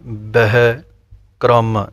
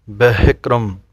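First: ਬਹਿ ਕਰਮ broken into two slow separate words; wrong split reading. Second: ਬਹਿਕਰਮ said as one word, beekɾəm; correct joined reading. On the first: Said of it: "ਇਸ ਤਰ੍ਹਾਂ ਨਹੀਂ". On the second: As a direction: run ਬਹਿਕਰਮ together with a light b. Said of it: "ਇਸ ਤਰ੍ਹਾਂ ਇਹ ਪਾਠ ਬੋਲਣਾ ਹੈ". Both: Shown as a demonstration.

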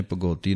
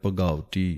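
First: ਭਗਉਤੀ said as bhagoti, with an o sound; wrong pronunciation. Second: ਭਗਉਤੀ said bhagauti with the au sound; correct pronunciation. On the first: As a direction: demo the common mistake ਭਗਉਤੀ as bhagoti. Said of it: "ਕਿਸੇ ਨੇ ਭਗਉਤੀ ਨਹੀਂ ਕਹਿਣਾ". (ਗਲਤ ਉਚਾਰਨ ਭਗੋਤੀ) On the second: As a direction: give ਭਗਉਤੀ a clear au. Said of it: "ਕਨੌੜੇ ਦੀ ਆਵਾਜ਼ ਦੇ ਕੇ ਬੋਲਣਾ ਹੈ". (ਕਨੌੜੇ ਦੀ ਆਵਾਜ਼ ਨਾਲ ਭਗਉਤੀ) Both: Shown as a demonstration.

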